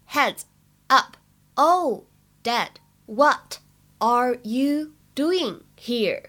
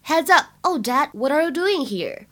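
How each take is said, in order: First: Very slow, each word on its own. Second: Said in the usual way. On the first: Shown as a demonstration. Teacher models the sitcom line for learners, slow and separated. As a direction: read "Heads up, oh, Dad" word by word with gaps. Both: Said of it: "在整句话的朗读过程当中呢".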